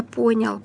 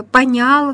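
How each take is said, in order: First: "понял" stressed on the first syllable; correct stress. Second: "понял" wrongly stressed on the last syllable. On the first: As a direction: say "понял" as ПО-нял. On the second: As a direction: say "понял" as по-НЯЛ. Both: Shown as a demonstration. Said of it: "вместо".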